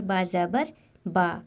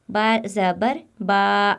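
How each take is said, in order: First: बा ज़बर बा read evenly, the ज़बर kept short; teacher shows students the right way, short unstretched vowel; correct short fatha. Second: बा ज़बर बा dragged out slowly, the vowel held long; teacher shows students the mistake, slow stretched vowel; wrong stretched fatha. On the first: बा ज़बर बा with a short, unstretched a. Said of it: "तो हमें इसे ऐसे अदा करना है". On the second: बा ज़बर बा with the a pulled long. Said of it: "अगर हम इसको ऐसे पढ़ें". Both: Shown as a demonstration.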